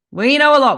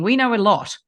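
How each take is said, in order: First: "know" punched louder and higher; emphatic repeat. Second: Said in the usual way. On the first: Real, not acted. Co-host insisting on their long experience, "know" stressed loudly. Restates the claim with more emphasis.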